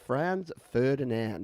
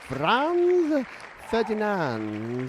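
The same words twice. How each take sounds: First: The name is said with an English pronunciation. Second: The name is said with a German-style pronunciation.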